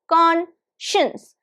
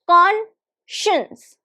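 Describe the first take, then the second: First: The middle sound is a 'sh'. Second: The middle sound is a 'sh'.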